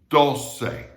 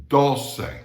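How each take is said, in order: No difference in how they are said.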